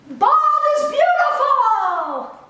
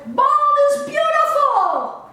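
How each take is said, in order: First: High, loud, slow ringing proclamation; triumphant declaration again. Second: High, loud and slow, a proud proclamation; triumphant declaration. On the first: Closing her message to the audience, a proud ringing shout. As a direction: shout it proudly to the whole world. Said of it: "I want to say one more time". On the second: Taking off her hat before the group, a proud shout. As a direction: announce it to the room like a victory cry. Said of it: "and declare". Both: Real, not acted.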